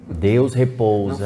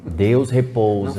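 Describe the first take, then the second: First: It is said firmly, like a forceful command. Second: The same.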